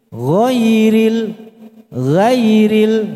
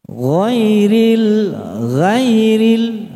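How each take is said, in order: The two takes are said the same way.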